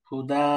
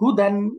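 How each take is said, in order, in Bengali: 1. শব্দটি 'n' ছাড়া লম্বা 'a' দিয়ে শেষ হয়। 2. শব্দটি শেষ হয় 'an' ধ্বনি দিয়ে। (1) "ওয়াকফ করলে কি পড়বো? হুদা" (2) "যেমন হুদান"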